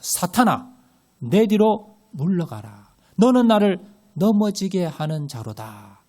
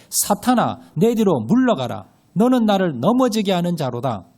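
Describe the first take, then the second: First: Slow, stern Jesus rebuking Peter; slow, weighty command to "사탄아"; stern rebuke. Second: Loud unison scripture reading; louder group reading of the verse; read aloud together. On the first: Acted. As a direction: point at him and rebuke slowly. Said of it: "베드로를 딱 가리키면서". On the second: Shown as a demonstration. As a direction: read it out loud as one congregation. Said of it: "시작".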